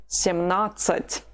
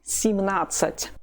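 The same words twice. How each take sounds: First: Семнадцать slowly, with a full "sem"; slow full form. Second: Семнадцать starting "sim", vowel weakened; slightly reduced ye. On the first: Teacher gives the form first, семнадцать slowly with full "sem". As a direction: keep the "e" clear in семнадцать, unhurried. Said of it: "you say the form itself slowly". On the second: Teacher improves seventeen, семнадцать with first vowel reduced to "i". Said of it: "so it's reduced slightly". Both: Shown as a demonstration.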